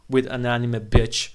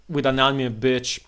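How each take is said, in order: Both takes have the same delivery.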